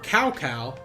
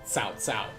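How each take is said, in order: First: The name is read with plain English sounds. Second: The name is read closer to Chinese sounds. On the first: The speaker calls it wrong. "is how we would read it in English, like naturally" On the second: The speaker calls it right. "it's probably closer to Sun Ce and Cao Cao"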